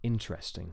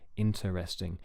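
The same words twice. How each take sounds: First: The word is said with three syllables. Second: The word is said with four syllables. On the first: The speaker calls it right. "It's just three syllables" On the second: The speaker calls it wrong. "you don't say interesting"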